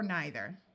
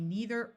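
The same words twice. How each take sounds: First: The first vowel is a long I sound. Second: The first vowel is a long E sound.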